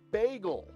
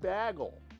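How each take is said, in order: First: Bagel is said with a non-Iowan pronunciation. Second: Bagel is said with an Iowan pronunciation. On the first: This is the pronunciation being defended. The speaker calls it right. "It's a bagel" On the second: This is the pronunciation being rejected. The speaker calls it wrong. "it's not a fucking bagel"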